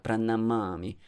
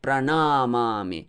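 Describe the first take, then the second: First: The vowel in 'na' is kept short. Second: The vowel in 'na' is held long. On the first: The speaker calls it right. "na here is short" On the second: The speaker calls it wrong. "Not Pranamami"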